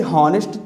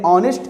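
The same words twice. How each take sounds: First: "हॉनेस्ट" with the H sounded; wrong pronunciation. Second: "ऑनेस्ट" starting straight on the vowel; silent H. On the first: English teacher showing students how honest is not read, wrongly sounded H. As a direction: say "हॉनेस्ट" with a spoken H at the front. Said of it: "तो इसको पढ़ते नहीं". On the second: English teacher showing students how honest is read, silent H. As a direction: say "ऑनेस्ट" with no H at all. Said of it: "इसको हम पढ़ते हैं". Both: Shown as a demonstration.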